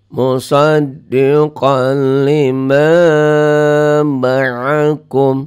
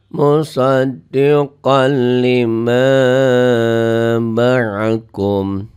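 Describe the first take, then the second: No difference in how they are said.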